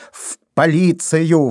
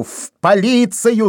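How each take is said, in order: First: Shouting. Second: Much higher, slow second cry; громче; louder shout. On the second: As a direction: repeat it, shouting harder. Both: A narrator's reading. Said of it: "закричал Вайнер".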